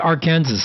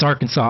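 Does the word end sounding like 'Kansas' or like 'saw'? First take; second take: Kansas; saw. First: The word ends like the state name 'Kansas'. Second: The word ends with a 'saw' sound. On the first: The speaker calls it wrong. "I was pronouncing it Arkansas and people were looking at me like I was dumb" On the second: The speaker calls it right. "I know it's Arkansas, I'm just kidding"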